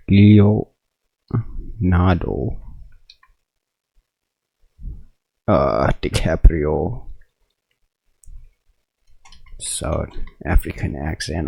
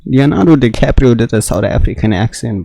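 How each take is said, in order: First: Slow, drawn-out repeat of "Leonardo, uh, DiCaprio. South African accent", trailing softer; slow disbelief. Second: Said in the usual way. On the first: Real, not acted. Streamer can't believe DiCaprio's accent, slow stunned repeat. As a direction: let each word hang in stunned disbelief.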